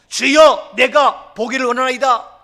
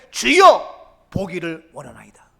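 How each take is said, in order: First: Preacher proclaiming the blind man's plea; loud proclamation. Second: Confident, loud call of 주여 falling to 보기를; bold cry. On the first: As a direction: declare it at full force to the Lord. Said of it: "말하세요, 고백하세요, 선포하세요". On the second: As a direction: cry out boldly to the Lord, then drop back. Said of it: "자신 있게, 용기 있게". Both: Acted.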